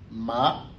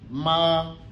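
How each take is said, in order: First: The pitch rises from mid to high. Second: The pitch stays high and level. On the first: "Si on ajoute le deuxième ton" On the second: "si on applique le premier ton"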